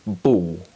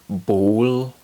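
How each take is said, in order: First: The final L sounds like a W. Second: The final L is a dark L. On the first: "sound more like ball" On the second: "words like ball"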